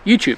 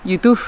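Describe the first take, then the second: First: YOUTUBE as "YOO-choob"; English pronunciation. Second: YOUTUBE as "yoo-TOOF"; Spanish pronunciation. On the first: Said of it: "I'm gonna say it in English". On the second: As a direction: say YouTube with an f at the end. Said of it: "With F at the end". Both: Shown as a demonstration.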